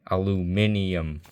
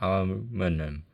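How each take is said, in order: First: The word is said with five syllables. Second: The word is said with four syllables. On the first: The speaker calls it right. "pronounced aluminium" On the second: The speaker calls it wrong. "not aluminum"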